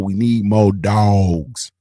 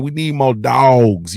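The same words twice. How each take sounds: First: Drawn-out slogan. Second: Slow emphatic. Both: Shown as a demonstration.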